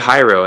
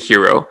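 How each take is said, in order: First: The first vowel sounds like 'eye'. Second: The first vowel sounds like 'ee'. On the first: The speaker calls it wrong. "some people say Hyro, and I'm like, it's not Hyro" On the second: The speaker calls it right. "most people get, say, Hero"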